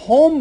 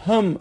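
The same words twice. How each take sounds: First: «هم» as hom, with a rounded o; تلفظ اصلی «هُم». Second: «هم» as hem, with a short unrounded vowel; تلفظ عراقی «هم». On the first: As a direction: say «هم» with a clear o vowel, hom. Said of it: "هم در واقع هست که به صورت". («هم» با ضمهٔ روشن، هُم) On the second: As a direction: say «هم» without the o, close to hem. («هم» بدون ضمهٔ روشن) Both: Shown as a demonstration.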